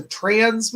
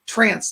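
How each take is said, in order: First: TRANS with a buzzing z sound at the end; trans, not trance. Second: TRANCE with a crisp "s" sound at the end. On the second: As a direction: say "trance" ending in an unvoiced s. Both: Shown as a demonstration. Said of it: "trance, T R A N C E".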